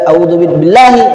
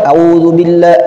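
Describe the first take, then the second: First: The long vowels are cut short. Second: The long vowels are cut short.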